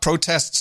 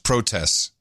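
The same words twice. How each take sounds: First: The T in the word is clearly pronounced. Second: The T in the word is dropped. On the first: This is the older way of saying it. "It's not protests anymore" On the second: This is how everyone says it now. "They're dropping the T in protests"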